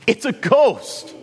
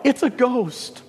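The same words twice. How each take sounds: First: High, drawn-out cry of terror; frightened cry. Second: High, startled cry of fear; frightened cry. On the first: Disciples struggling at the oars cry out, terrified. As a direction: wail it like men seeing a phantom. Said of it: "And they cry out". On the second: Terrified disciples in the boat cry out in fear. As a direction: cry out like scared sailors seeing a ghost. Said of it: "cry out". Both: Acted.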